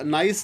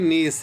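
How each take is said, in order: First: The vowel sounds like "eye". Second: The vowel sounds like "ee". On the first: The speaker calls it wrong. "नाइस नहीं है" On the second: The speaker calls it right. "बल्कि नीस है"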